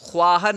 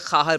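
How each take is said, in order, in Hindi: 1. शुरुआती 'kh' के बाद 'w' की आवाज़ आती है। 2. शुरुआती 'kh' के बाद 'w' की आवाज़ नहीं आती है। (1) "ये बात याद रहे कि सिर्फ वाव नहीं पढ़ेंगे, ख्वाहर नहीं" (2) "बल्कि ख़ाहर पढ़ेंगे"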